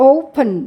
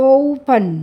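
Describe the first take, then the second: Both takes have the same delivery.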